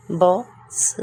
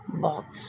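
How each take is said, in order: First: box said out with a rise; clear model. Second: box repeated much softer and lower; soft echo. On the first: Teacher models box aloud for students. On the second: Teacher echoes box quietly after the model. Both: Shown as a demonstration. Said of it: "teacher models word twice".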